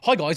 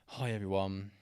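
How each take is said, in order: First: The greeting sounds upbeat and lively. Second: The greeting sounds flat and dull.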